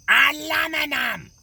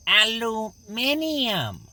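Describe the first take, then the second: First: "Aluminum" shouted, four syllables, stress on LU; American pronunciation. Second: "Aluminium" drawn out slowly, five syllables; slow, insistent "Aluminium"; British pronunciation. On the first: Acted. Gregor shouting back his own pronunciation of the word. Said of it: "you're saying that quite right". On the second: Shown as a demonstration. Arguing with Gregor over the word, insisting on the British way. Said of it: "it is pronounced".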